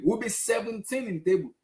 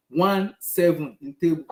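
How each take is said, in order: First: Said in the usual way. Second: "One seven" slowly, each number hit apart; spelled-out stress. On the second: Shown as a demonstration.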